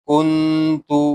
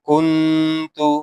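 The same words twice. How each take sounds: The two takes are said the same way.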